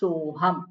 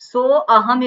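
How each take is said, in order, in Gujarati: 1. 'So' કોઈ અલગ સ્વર વગર 'ham' સાથે જોડાય છે. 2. 'so' પછી અલગ 'a' સ્વર સંભળાય છે. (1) "પણ સોહમ" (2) "એવું ના બોલાય"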